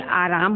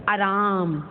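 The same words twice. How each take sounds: First: Said in the usual way. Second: आराम with a short first vowel, "araam"; mispronounced आराम. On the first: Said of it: "होता है ना". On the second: Shown as a demonstration. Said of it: "आराम तो होता नहीं". (आराम का पहला स्वर छोटा, "अराम")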